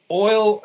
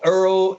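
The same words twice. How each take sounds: First: Said in the usual way. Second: "Earl" said for oil, with an er vowel; Brooklyn "oil". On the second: Shown as a demonstration. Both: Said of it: "oil, I would say Earl".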